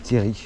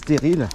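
First: The final L is silent at the end. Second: The final L is pronounced at the end. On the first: "pour moi, je dis Terry" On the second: "il y en a qui disent stérile"

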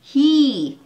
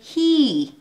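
First: The vowel is long and glides downward. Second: The vowel is long and glides downward.

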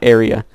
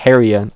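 First: The word starts directly with a vowel. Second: The word starts with an added H sound. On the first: The speaker calls it right. "there's no H in area" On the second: The speaker calls it wrong. "I said it with an H"

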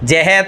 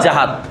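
First: The first vowel is an e sound. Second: The first vowel is an a sound. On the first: The speaker calls it wrong. "এগুলো সব ভুল" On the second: The speaker calls it right. "শুদ্ধ কি? জাহাদ।"

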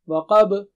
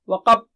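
First: The final b is released with a strong bounce. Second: The final b is swallowed without a bounce. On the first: The speaker calls it right. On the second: The speaker calls it wrong. "So don't recite"

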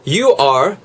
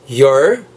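First: Both words are said fully and separately. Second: The words merge into one short syllable.

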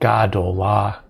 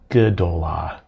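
First: The first syllable has a full a vowel. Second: The first syllable is shortened to a schwa. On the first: The speaker calls it wrong. "Instead of gadola" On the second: The speaker calls it right. "they will get a vocal schwa"

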